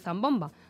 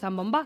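First: The stress is on the middle syllable. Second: The stress is on the last syllable.

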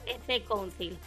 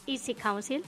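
First: The name is read with Spanish sounds. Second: The name is read with English sounds. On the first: "podríamos decirlo así en castellano, EC Council, como suena" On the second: "Y en inglés, dilo tú, que te sale muy bien"

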